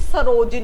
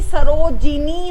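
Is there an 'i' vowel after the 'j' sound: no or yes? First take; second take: no; yes. First: There is no 'i' vowel after the 'j' sound. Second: An 'i' vowel follows the 'j' sound. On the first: The speaker calls it wrong. "ना कि सरोजनी" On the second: The speaker calls it right. "ऐसे ही सरोजिनी होता है"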